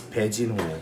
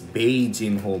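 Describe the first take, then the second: First: The name begins with a P sound. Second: The name begins with a B sound. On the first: This is how the name is actually said. The speaker calls it right. "but it's Pejinho" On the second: This is how the name was written by immigration. The speaker calls it wrong. "ang sinulat nila is Ped, it's Beijinho"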